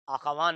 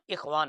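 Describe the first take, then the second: First: The first vowel is an 'a' sound. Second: The first vowel is an 'i' sound. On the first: The speaker calls it wrong. "अख़वान नहीं, ज़बर नहीं है" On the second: The speaker calls it right. "इख़वान है, हर जगह हमजे के नीचे ज़ेर है"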